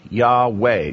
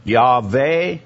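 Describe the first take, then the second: First: Yahweh said as yah-WAY; W pronunciation. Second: Yahweh said as yah-VAY; V pronunciation. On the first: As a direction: say Yahweh with a rounded W in the middle. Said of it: "it was Wa". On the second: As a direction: say Yahweh with a V in the middle. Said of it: "Wa, and Va were the same pronunciations". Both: Shown as a demonstration.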